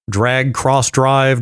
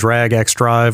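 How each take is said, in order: First: The X is spoken as the word cross. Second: The X is spoken as the letter ex. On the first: "whatever you want to call it" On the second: "whatever you want to call it"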